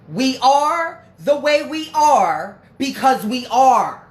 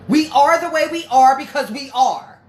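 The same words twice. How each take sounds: First: It is said more slowly. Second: It is said at normal speed.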